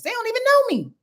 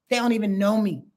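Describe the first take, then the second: First: High mock protest. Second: Said in the usual way. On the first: Voiced Cynthia, then plain repeat.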